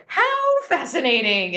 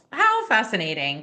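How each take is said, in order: First: High, slow, delighted "How fascinating"; animated coach. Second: Said in the usual way. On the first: Retold or imitated. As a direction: throw up your hands and marvel at the mistake. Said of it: "And he throws up his hands like this". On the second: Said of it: "say to ourselves".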